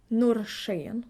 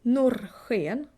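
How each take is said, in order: First: Norrsken with sk as "sh"; northern Swedish sh. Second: Norrsken with sk as a back "kh" sound; southern Swedish ch. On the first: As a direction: say norrsken as "nor-shen". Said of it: "you would say sh". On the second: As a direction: say Norrsken as "nor-khen". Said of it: "you would say ch". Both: Shown as a demonstration.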